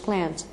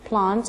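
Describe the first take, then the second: First: It is said in an American English accent. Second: It is said in a British English accent. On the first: "American English" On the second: "British English"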